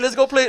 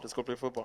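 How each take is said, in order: First: It is said aloud in a normal voice. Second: It is muttered quietly under the breath.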